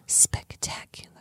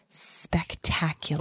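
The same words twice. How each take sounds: First: It is said in a whisper. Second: It is said in a normal voice.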